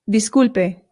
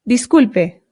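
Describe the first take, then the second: The two takes are said the same way.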